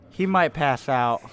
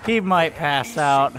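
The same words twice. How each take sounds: First: Said in the usual way. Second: Slow, loud, each word weighted; emphatic repeat. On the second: Real, not acted. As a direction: spell it out loudly and slowly. Repeats louder and slower.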